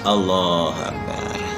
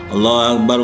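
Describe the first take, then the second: First: It is said slowly, with a breath before it. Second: It is said fast, run into the next repetition. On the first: The speaker calls it right. "Tarik nafas" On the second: The speaker calls it wrong. "Atau digandeng, yang salah lagi"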